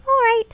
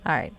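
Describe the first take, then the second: First: High, loud put-on pixie. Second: Said in the usual way. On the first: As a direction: pipe it up like a pixie. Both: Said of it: "got the pixie voice".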